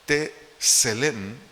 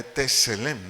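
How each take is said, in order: First: "Tselem" said as tse-LEM, stress on the first E; Hebrew word Tselem. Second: "Tselem" repeated with stress on the first E, rising at the end; Hebrew word Tselem. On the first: Preacher teaching the congregation the Hebrew word, stress on the first E. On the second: Preacher repeating the Hebrew word for listeners, stress on the first E. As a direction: model "Tselem" once more, first E stressed. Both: Shown as a demonstration. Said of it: "acento en la primera E".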